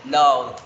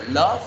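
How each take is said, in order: First: "loved" loud, with a voiced d closing it; past ending demonstrated. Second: Said in the usual way. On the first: Shown as a demonstration. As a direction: say "loved" in one syllable, "lovd". ("loved" fuerte, una sílaba con d final) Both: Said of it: "Por ejemplo".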